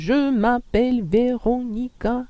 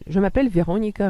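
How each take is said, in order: First: Each syllable is said separately. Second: The syllables flow smoothly together. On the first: The speaker calls it wrong. "c'est ridicule" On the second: The speaker calls it right. "Il y a quand même une petite liaison entre les syllabes"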